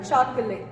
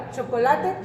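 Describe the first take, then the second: First: Chocolate said in English, choc-uh-let; English pronunciation. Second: Chocolate said in Spanish, four syllables cho-co-la-te; Spanish pronunciation. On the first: Teacher comparing languages for students, chocolate in English. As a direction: say chocolate the English way, final e silent. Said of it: "pero no se pronuncia igual". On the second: Teacher comparing spellings for students, chocolate in Spanish. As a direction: say chocolate the Spanish way, every vowel sounded. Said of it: "En inglés y en español se escribe igual". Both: Shown as a demonstration.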